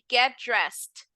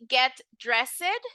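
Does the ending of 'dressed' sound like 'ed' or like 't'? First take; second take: t; ed. First: The ending is said as a 't' sound. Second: The ending is said as a full 'ed'. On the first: The speaker calls it right. "you're going to pronounce this ed as a T" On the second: The speaker calls it wrong. "instead of saying"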